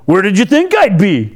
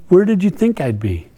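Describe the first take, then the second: First: It is said in a disrespectful, sassy tone. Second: It is said in a plain, gentle asking tone. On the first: The question is a rude retort. "this might sound kind of disrespectful" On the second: The question is sincerely asked. "Or did he just ask"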